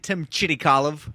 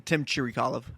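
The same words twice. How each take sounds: First: The R in the surname is rolled. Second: The R in the surname is plain. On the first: It is a fancy way to show off. "if you want to get fancy, ... You can roll the R" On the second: It is the everyday way to say it. "when I say"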